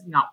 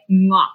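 First: The name is said with Vietnamese pronunciation. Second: The name is said like the English word knock. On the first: "My Vietnamese name was Ngoc" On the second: "kids in Canada, when I went to school, they pronounced it like Ngoc"

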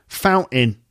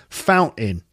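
The two takes are said the same way.

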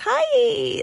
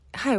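First: It is said in a high, raised pitch. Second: It is said in a lower, natural pitch.

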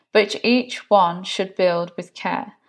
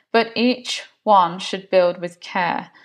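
No difference in how they are said.

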